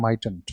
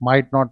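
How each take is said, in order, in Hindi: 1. Not को छोटा करके might के साथ जोड़ दिया जाता है। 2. Not को एक अलग, पूरा शब्द के रूप में बोला जाता है। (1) "तो शॉर्ट फॉर्म बोला जाएगा उसका" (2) "नहीं बोलेंगे"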